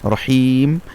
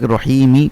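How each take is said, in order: First: The word ends on a bare m consonant. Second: The word ends with a short vowel after m. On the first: The reading stops at this word. "ওয়াকফ করে দিব, সেই জন্য সেটার উপর মিমের উপর জজম হবে" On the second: The reading continues without stopping. "রহিমি করি তাহলে সেটা কি হবে?"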